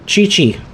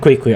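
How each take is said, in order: First: Each syllable starts with a 'ch' sound. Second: Each syllable starts with a 'kw' sound. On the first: The speaker calls it right. "It's a Chi-Chi" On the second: The speaker calls it wrong. "Not Quick-Quick. I said Quick-Quick last time"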